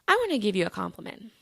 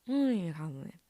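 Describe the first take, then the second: First: The words are said clearly and distinctly. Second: The words are said in a mumbled, unclear way.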